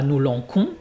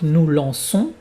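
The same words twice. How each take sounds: First: The middle consonant is a hard k sound. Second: The middle consonant is a hissing s sound. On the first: The speaker calls it wrong. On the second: The speaker calls it right.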